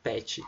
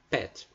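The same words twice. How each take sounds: First: It is said with a Brazilian Portuguese pronunciation. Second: It is said with an English pronunciation. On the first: "em português a gente fala pet" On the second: "em inglês a pronúncia mesmo é pet"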